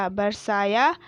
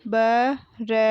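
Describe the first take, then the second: First: Said in the usual way. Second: बरसाया broken into ba, ra, saa, yaa; बरसाया letter by letter with gaps between; spelled out. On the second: Shown as a demonstration. Teacher sounding out बरसाया for pupils, syllable by syllable. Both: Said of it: "मैंने इस तरीके से पढ़ा".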